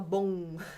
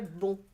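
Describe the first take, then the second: First: The nasal vowel is held somewhat longer. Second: The nasal vowel is clipped somewhat shorter. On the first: "Em português a gente fala bom" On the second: "Em francês é bom. É um pouco mais curto"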